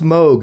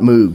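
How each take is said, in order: First: The vowel sounds like the one in vogue. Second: The vowel sounds like the one in moo. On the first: The speaker calls it right. "it's pronounced Moog ... He says it rhymes with Vogue" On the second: The speaker calls it wrong. "not Moog ... It doesn't sound like a cow going moo plus G"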